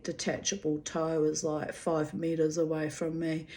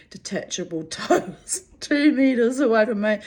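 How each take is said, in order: First: Said in the usual way. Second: Louder, higher countdown with a laugh; mock alarm. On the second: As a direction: sound the comic alarm as he closes in. Inner countdown as he gets closer.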